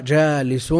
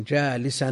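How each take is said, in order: First: "جالس" ending in -un, jālisun; nominative ending. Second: "جالسا" ending in -an, jālisan; accusative ending. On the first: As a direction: say "جالس" with a clear final -un. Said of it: "بالرفع". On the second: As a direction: say "جالسا" with a clear final -an. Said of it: "بالنصب". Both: Shown as a demonstration.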